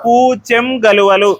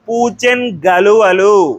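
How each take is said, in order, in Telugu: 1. మొదటి పదం 'మ్' ధ్వనితో ముగుస్తుంది. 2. 'న్' నేరుగా తదుపరి పదంలో కలిసిపోతుంది. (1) "సున్నా వస్తుంది" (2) "సంశ్లేష రూపం"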